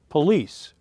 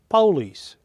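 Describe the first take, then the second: First: It is said in the northern US way. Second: It is said in the southern US way. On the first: "northern part of the U S as police" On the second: "in the southern part of the U S, it's pronounced police"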